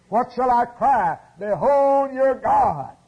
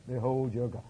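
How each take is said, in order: First: High, loud proclamation, slowing on behold; cry out. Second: Soft, low repeat of the proclamation; hushed echo. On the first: Preacher voicing the prophet's cry, loud and high. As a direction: ring it out like a prophet crying. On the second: Preacher echoing the prophet's cry, soft and low. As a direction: pull back to a reverent hush. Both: Acted.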